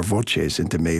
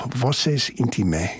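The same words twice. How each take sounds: First: "Voces" with a ch sound, VO-ches; Italian pronunciation. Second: "Voces" with an s sound in the middle; Latin pronunciation. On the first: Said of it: "if you prefer the Italian pronunciation". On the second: Two pronunciations of the title contrasted. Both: Shown as a demonstration.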